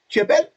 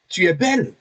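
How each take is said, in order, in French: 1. Ça se dit comme une question, en montant à la fin. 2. Ça se dit comme une exclamation, en finissant bas. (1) "tu poses une question" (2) "Tu as un point d'exclamation pour confirmer"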